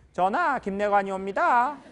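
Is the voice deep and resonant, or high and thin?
high. The voice is high and thin. "내관 이런 분들이"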